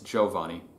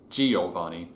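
First: The word is said with three syllables. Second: The word is said with four syllables. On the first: The speaker calls it right. "In proper Italian, it's Giovanni. Trisyllabic, not quadrisyllabic" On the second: The speaker calls it wrong. "The Western way in America, it tends to be Giovanni, and it's not"

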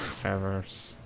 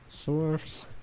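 First: The word is said with a v sound inside. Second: The word is said with a w sound inside. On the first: The speaker calls it wrong. "in my head I always have want to say source like sever ability" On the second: The speaker calls it right. "I think this is sewers"

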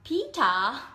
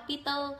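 First: It is said with a British accent. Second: It is said with a Vietnamese accent.

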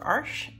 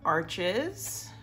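First: The name is said the original way. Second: The name is said the American way. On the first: "as it's actually pronounced" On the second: "as Americans say"

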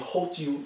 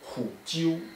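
First: The first syllable keeps the vowel o. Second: The first syllable changes to the vowel u. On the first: The speaker calls it wrong. "你不能念ho 啾" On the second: The speaker calls it right. "它是念虎啾，o 就变成了u"

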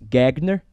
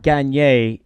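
First: The second g is a hard g. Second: The second g is soft, French-style. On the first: "we should pronounce the second G as a hard G" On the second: "It is a French surname"

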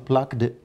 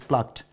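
First: The ending is an extra 'id' syllable. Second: The ending is a plain 't' sound. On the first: The speaker calls it wrong. "plucked is wrong" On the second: The speaker calls it right. "the sound is t"

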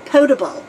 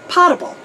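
First: The first syllable has an 'oh' vowel. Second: The first syllable has an 'ah' vowel. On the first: "the proper pronunciation is potable, like P-O-H, table" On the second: "a lot of our military says potable, like P-A-H"

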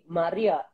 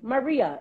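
First: The name is said in its original, native way. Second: The name is said in a flattened, anglicized way. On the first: The name is said as it is supposed to be. The speaker calls it right. "it's supposed to be Maria" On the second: The name is simplified for convenience. The speaker calls it wrong. "water it down and say Maria"

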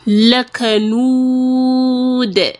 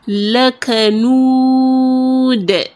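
No difference in how they are said.

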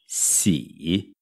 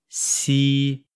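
First: The syllable has a low, dipping pitch. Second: The syllable has a high, level pitch. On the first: "No verbo gostar é terceiro tom" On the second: "no Brasil é primeiro tom"

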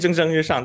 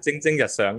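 First: The phrase is pronounced in Mandarin. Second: The phrase is pronounced in Cantonese.

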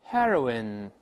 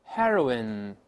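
The two takes are said the same way.

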